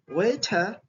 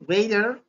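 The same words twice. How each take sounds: First: It is said with a British accent. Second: It is said with an American accent.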